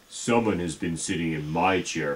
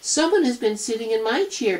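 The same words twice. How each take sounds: First: It is said in a big, deep voice. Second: It is said in a tiny, high voice. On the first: "in his great big voice" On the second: "in his tiny little voice"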